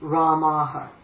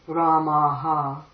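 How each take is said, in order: First: The final vowel after the h is short. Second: The final vowel after the h is long. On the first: The speaker calls it right. "always be a short form" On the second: The speaker calls it wrong. "It's not going to be"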